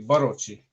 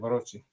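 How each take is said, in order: First: The stress falls on the first syllable. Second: The stress falls on a later syllable. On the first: The speaker calls it right. "if we pronounce it correctly. Because usually the accent's in the first syllable" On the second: The speaker calls it wrong. "I guess that's how you say Barocci"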